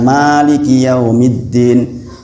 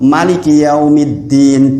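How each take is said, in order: First: The first vowel is drawn out long. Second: The first vowel is held for one beat. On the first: "kalau dibaca panjang" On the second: "baca satu harokat"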